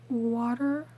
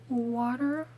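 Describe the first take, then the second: The two takes are said the same way.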